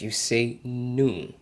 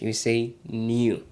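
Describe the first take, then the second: First: It is said with an American accent. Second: It is said with a British accent.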